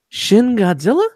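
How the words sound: The voice rises at the end like a question. It is asked as a question. "It was a question"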